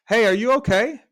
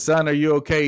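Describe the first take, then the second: First: Much higher and louder, a shout down into the hole; calling out. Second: Louder, concerned call into a hole. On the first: [name] shouts down to the stuck man, high loud call. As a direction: shout to reach someone far below. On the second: Passer-by calls down to the man in the hole, loud concerned call. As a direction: call out to someone stuck below. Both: Acted.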